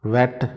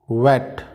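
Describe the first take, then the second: First: वेट said as "vet", with a V; V instead of W. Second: वेट said as "wet", lips rounded first; louder वेट, gliding in from "oo"; rounded W sound. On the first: Teacher showing what not to say, V sound. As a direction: start वेट on a V, no rounding. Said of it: "वेट नहीं बोलेंगे". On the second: Teacher modelling the W sound, rounded W. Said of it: "डब्ल्यू का sound जो मैंने आपको पहले भी बताया था". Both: Shown as a demonstration.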